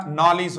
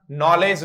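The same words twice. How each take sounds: First: नॉलेज ending in a short lij, nɔlidʒ; नॉलेज with a light i sound; right short lij. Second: नॉलेज ending like ledge, nɔledʒ; the wrong way, नॉलेज with a clear e; नॉलेज with a full e vowel. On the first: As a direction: say नॉलेज as nol-ij. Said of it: "नॉलेज होगा". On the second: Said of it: "नॉलेज नहीं होगा". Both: Shown as a demonstration.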